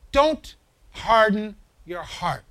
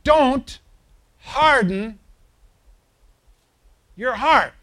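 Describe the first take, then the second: First: "don't harden your heart" read slowly and evenly; slow, measured reading. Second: "don't" hit higher and louder, then "harden your heart" falling; stress on DON'T. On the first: Preacher slowly reading the verse to the congregation, measured. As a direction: draw out every word of the verse. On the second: Preacher warning his congregation, stress on "don't". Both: Acted.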